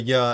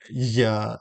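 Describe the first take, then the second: First: The first consonant is a smooth approximant. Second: The first consonant is a buzzing fricative. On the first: "as in the approximant" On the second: "as in the fricative"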